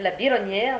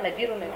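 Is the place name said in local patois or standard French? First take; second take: standard French; local patois. First: The name is said in its standard French form. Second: The name is said in its local patois form. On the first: This is the official form of the name. "au lieu de la Bironnière" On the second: This is how local people say the name. "on dit la Birounaire"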